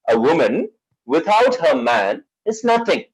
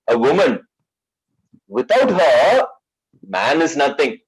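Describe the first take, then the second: First: It is read without a pause after 'her'. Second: It is read with a pause after 'her'. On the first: A woman is nothing without her man. "What does that mean? A girl, a woman without her male counterpart, she's nothing" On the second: Man is nothing without woman. "I've just altered this comma"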